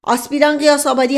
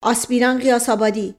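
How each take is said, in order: First: Said in the usual way. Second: Name snapped out sharply. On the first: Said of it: "نایب تیمور خان نرم شد". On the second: Acted. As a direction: call the name as a stern order. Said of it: "با لحن تندی گفت". (صدا زدن تند و آمرانهٔ اسم)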